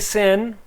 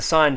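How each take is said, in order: First: The word rhymes with 'win', a short vowel. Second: The word rhymes with 'line', a long vowel. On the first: The speaker calls it wrong. "don't say sin, it's a pet peeve" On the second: The speaker calls it right. "It's the sine function"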